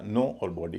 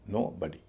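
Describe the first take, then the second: First: नो, then बॉडी with full "o"; words said separately. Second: नो बॉडी as "no-buh-dee"; reduced second O. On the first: Teacher saying the parts apart, बॉडी with full O. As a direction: keep बॉडी's rounded O. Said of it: "अलग अलग बोला जाएगा". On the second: Teacher showing the joined word, नो बॉडी as "no-buh-dee". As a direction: turn the O of बॉडी into a schwa. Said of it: "ओ की जगह अ हो जाएगा". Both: Shown as a demonstration.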